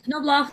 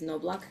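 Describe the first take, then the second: First: The K is sounded, with a German CH. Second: The K is silent, read as in English. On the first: The speaker calls it right. "you pronounce the K and you say the, the C H sound like the Germans would" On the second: The speaker calls it wrong. "any English reader would read that string as Nobloch"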